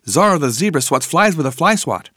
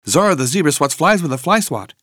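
Both takes have the same delivery.

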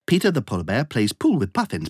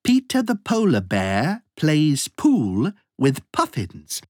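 First: The sentence is spoken at a very fast pace. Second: The sentence is spoken at a moderate pace.

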